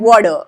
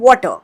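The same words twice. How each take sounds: First: The middle consonant sounds like a soft D. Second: The middle consonant is a clear, stressed T. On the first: "would pronounce this T sound as D" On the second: "put more stress on T. वो T sound बोलेंगे"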